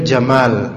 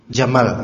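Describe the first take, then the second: First: The word is pronounced in Arabic style. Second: The word is pronounced in Indonesian style. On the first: "itu bacanya sebenarnya jamal" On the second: "Kalau kita orang Indonesia gak ada bedanya. Jamal, gitu aja"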